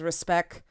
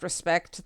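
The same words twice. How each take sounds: First: The final t sound is dropped. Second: The final t sound is pronounced.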